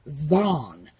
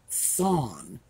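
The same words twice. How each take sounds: First: It starts with a buzzing th, as in they. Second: It starts with a hissing th, as in thermometer. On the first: The speaker calls it right. "because remember that T H sound we have in they, them, this, that" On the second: The speaker calls it wrong. "not thon"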